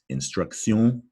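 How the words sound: It is said with a French pronunciation. "in French, this would be pronounced"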